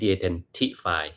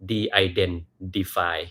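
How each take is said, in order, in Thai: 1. เสียง t ตรงกลางเป็นเสียง t ชัดๆ 2. เสียง t ตรงกลางเบาลงไปทางเสียง d (1) "ไม่ใช่" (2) "ให้เปลี่ยนตัว T เป็นตัว D นิดหนึ่ง"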